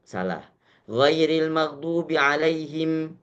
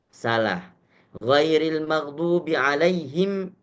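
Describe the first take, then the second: No difference in how they are said.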